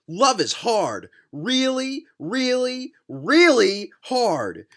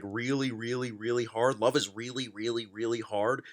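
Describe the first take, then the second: First: Each "really" high and drawn out; heavy emphasis on "really". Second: Low, soft run of "really, really, really"; mocking repeat. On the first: Retold or imitated. Reading the author's line on love, stressing each "really". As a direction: slowly punch every "really" as its own statement. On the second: Reader echoing the author's love line, low mocking repeat. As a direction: repeat "really" under your voice, lower and quieter. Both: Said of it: "He puts so much emphasis on the word really".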